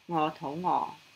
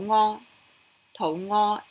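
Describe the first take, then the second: First: The last syllable has a low tone. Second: The last syllable has a high tone. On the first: The speaker is hungry. "just the low tone ngo" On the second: It refers to diarrhea. "if you wanted to make the ngo a high tone"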